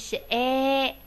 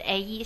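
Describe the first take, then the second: First: The vowel is one sound held long. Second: The vowel glides from one sound to another. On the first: The speaker calls it right. "是a。把这个哎读的长一点" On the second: The speaker calls it wrong. "不要读成一个a e 啊，不是a e"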